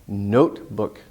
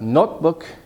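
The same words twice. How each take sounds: First: The first vowel is long, like in 'note'. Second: The first vowel is short, like in 'not'. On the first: The speaker calls it right. "It's a long vowel" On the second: The speaker calls it wrong. "not notebook. Not, that wouldn't really make sense"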